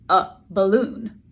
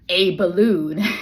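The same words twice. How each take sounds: First: The article is reduced to a weak 'uh'. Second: The article is said fully, like 'ay'. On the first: The speaker calls it right. "if you're speaking fast, you're going to say something like" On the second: The speaker calls it wrong. "it's not going to be a balloon"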